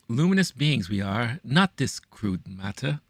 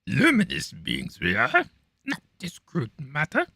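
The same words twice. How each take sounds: First: It is said in the speaker's normal voice. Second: It is said in a put-on character voice. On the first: The speaker calls it wrong. "I didn't do that justice" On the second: The speaker calls it right. "in my Yoda voice"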